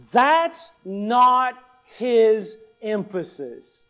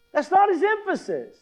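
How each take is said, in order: First: "That's not his emphasis" slow, word by word; emphatic correction. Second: "That's not his emphasis" in one high-pitched run; much higher, unbroken "That's not his emphasis"; insistent correction. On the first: Correcting the congregation's emphasis, then repeating. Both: Real, not acted.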